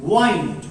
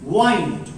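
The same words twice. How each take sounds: First: It is said with the verb pronunciation. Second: It is said with the verb pronunciation.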